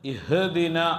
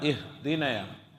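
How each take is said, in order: First: The h sound gets an echoing bounce. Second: The h sound is kept plain without bounce. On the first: The speaker calls it wrong. "ഇഹ് ഇഹ് എന്ന മുഴക്കം വരാൻ പാടില്ല" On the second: The speaker calls it right. "ഇഹ്ദിന ഇഹ്ദിന എന്നേ പറയേണ്ടതുള്ളൂ"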